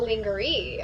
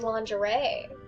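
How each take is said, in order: First: It is said sounded out from spelling. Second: It is said the standard way. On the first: The speaker calls it wrong. "It's not lingerie" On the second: The speaker calls it right. "it's lingerie"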